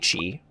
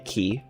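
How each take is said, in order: First: The word is pronounced like 'chee'. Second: The word is pronounced like 'key'. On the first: This is how the speaker says it. "I say chi, which makes sense" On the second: This is how some other players say it. "People that say key, that makes sense"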